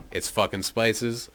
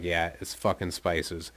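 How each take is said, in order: First: Slow, questioning "spices"; retold question landing on "spices". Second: Slow, settled statement on "spices"; confirming. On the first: Friend's questioning quote, then speaker confirms. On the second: Retold or imitated. Speaker's retold confirmation of the question.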